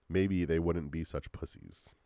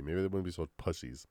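First: Slow, careful redo; measured, slowed-down correction; deliberate retake. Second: Said in the usual way. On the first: Shown as a demonstration. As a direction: restate it slowly and deliberately. Redoes the flubbed line deliberately.

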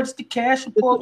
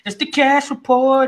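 First: Said in the usual way. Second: Slow, drawn-out segment intro; announcer voice. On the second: Acted. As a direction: announce it like a show title.

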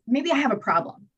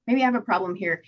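First: Higher, sugary mock admission; coaxing confession. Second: Said in the usual way. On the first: To her partner, a higher manipulative admission. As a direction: play innocent to win him over. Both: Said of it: "And I was like".

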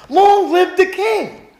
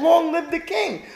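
First: Honoring the king. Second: Said in the usual way. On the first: Acted. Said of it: "Look how he answered". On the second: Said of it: "No, he said".

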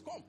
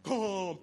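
First: Said in the usual way. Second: Booming, drawn-out divine summons; mock thunderous voice. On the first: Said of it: "Just the normal voice". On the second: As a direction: boom it out like thunder from heaven. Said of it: "he didn't talk with thunder".

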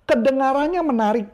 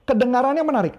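First: Lightly higher, sing-song kedengarannya; auditory talker. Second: Lightly higher kedengarannya, falling end; mild imitation of a listener type; auditory talker. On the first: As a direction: voice an auditory buyer. (sedikit meniru gaya auditori) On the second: (tiruan ringan gaya auditori) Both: Shown as a demonstration. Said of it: "Dia ngomong gitu".

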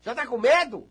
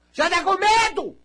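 First: Said in the usual way. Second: High, louder teasing repeat; mock-teasing the scared listener, high; mocking high question. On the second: Real, not acted. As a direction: tease the fear up high.

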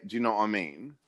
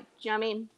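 First: "do you know what I mean" with each word still clear; over-pronounced British phrase. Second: "do you know what I mean" crushed to "juh-mean"; slurred into one word. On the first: Retold or imitated. Quoting what Brits constantly say, "do you know what I mean" over-pronounced. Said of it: "you might even be pronouncing it too much". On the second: Shown as a demonstration. Correcting a friend's careful version, "do you know what I mean" slurred together. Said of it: "but it's more like".

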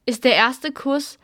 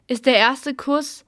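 The two takes are said the same way.

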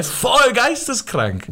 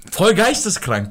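First: "Voll geisteskrank" stretched very slow and much higher; drawn-out emphasis. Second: Said in the usual way. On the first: Real, not acted. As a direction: drag out "Voll geisteskrank" for effect.

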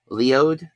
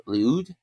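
First: Léaud? tried as "lee-OH", unsure, rising; Léaud? sounded out "lee-oh" as a tentative question; Léaud? said "lee-oh" with a questioning rise. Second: Léaud? tried again as "lee-OOD", unsure; Léaud? sounded out "lee-ood", rising, doubtful; Léaud? said "lee-ood" with a questioning rise. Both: Shown as a demonstration. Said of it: "Maybe it's Leo".

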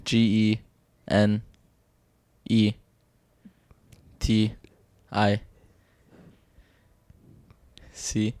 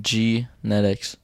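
First: Quiet letters with long pauses; slow hesitant spelling. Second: "Genetics" drawn out slowly, softer; sounding out. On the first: Real, not acted. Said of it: "No, spell genetics". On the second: Shown as a demonstration. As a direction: stretch "Genetics" syllable by syllable, quietly. Sounding out word to spell.

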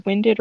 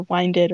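First: "winded" with a short i; "winded" as in out of breath; short-i pronunciation. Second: "winded" with a long i; "winded" as in winding a clock; long-i pronunciation. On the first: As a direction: say "winded" like wind that blows. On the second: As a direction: say "winded" to rhyme with "minded". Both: Shown as a demonstration. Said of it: "can't tell if it's winded or winded".

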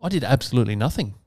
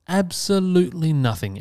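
First: Said in the usual way. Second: "Absolutely nothing" repeated much higher, leaning on "Absolutely"; emphatic repeat. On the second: Real, not acted. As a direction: land hard on "Absolutely" then let "nothing" fall.

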